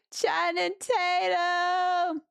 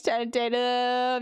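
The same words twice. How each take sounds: First: Excited. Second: Said in the usual way. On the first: Real, not acted. Excited shout at donor name.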